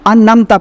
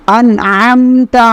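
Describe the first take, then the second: First: The syllables run together with no throat sound. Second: A throat sound separates 'an' from 'amta'. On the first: The speaker calls it wrong. "बाज लोग इसमें ये गलती करते हैं" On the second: The speaker calls it right. "अनमता नहीं है, अनअमता"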